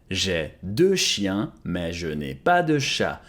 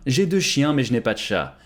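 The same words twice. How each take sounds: First: Very slow, drawn out, clearly spaced; slow model repeat. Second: Said in the usual way. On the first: Shown as a demonstration. Teacher repeating French for students, very slowly. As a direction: say it very slowly for learners to copy. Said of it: "slow repeat of model". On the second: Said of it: "repeated model sentence".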